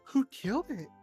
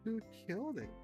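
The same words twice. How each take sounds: First: It is said in a put-on character voice. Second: It is said in a plain, normal voice.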